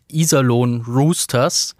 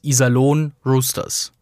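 First: The stress in Iserlohn is on the first syllable. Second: The stress in Iserlohn is on the last syllable. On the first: The speaker calls it right. "geht Iserlohn Roosters einfacher" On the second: The speaker calls it wrong. "unüblich, 2 betonte Silben nacheinander zu sprechen"

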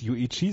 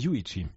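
First: The stress falls on a later syllable. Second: The stress falls on the first syllable. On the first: The speaker calls it wrong. "Er heißt nämlich nicht Yuichi" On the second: The speaker calls it right. "dass die Betonung auf der ersten Silbe ist vom Vornamen"

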